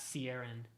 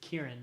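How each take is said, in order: First: The name begins with an S sound. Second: The name begins with a K sound. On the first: The speaker calls it wrong. "not Ciaran" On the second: The speaker calls it right. "the C I, just like C I A R A N is Kieran"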